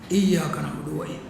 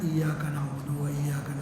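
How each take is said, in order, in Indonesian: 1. Dibaca dengan keras dan lantang. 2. Dibaca dengan pelan dan lirih.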